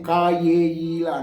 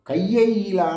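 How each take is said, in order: First: The syllables are pronounced separately, one by one. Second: The syllables are joined together into one flow. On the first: The speaker calls it wrong. "చాలామంది కా ఏ ఈలా అంటారు... correct కాదు" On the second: The speaker calls it right. "శాస్త్రీయ పరంగా చెప్తుంటారు... విడతీయకూడదు, కలపాలి"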